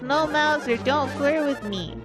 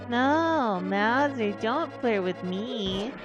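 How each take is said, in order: First: It sounds serious and sincere. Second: It sounds silly and playful.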